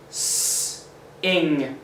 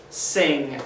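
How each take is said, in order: First: "S-" hissed, then "ing" apart; sounded out. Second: "Sing" said as one smooth word; blended word. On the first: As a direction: split "S-" from "ing". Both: Shown as a demonstration. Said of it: "saying all three of those letters together".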